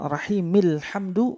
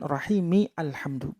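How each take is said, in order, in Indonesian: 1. Kata-katanya tersambung langsung, alif dihilangkan. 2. Alif diucapkan sebagai vokal tersendiri. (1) "Jadi bacanya rahimil hamdu" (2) "bukan rahimi alhamdu"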